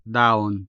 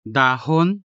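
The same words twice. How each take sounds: First: Daon, da gliding straight into on; dropped h. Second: Dahon with a full, audible h; clearly sounded h. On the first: Tutor offers either option, daon with dropped h. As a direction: say daon with no audible h. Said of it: "ha consonant is much less prominent". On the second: Tutor offers either option, dahon with clearly sounded h. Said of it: "clearly and audibly sound the unstressed ha". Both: Shown as a demonstration.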